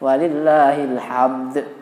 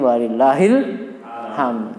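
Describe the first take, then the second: First: The final d sound is clearly pronounced. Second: The final d sound is left out. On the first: The speaker calls it right. "Ada dal di situ" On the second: The speaker calls it wrong. "sok dikorupsi dale ilang jadi"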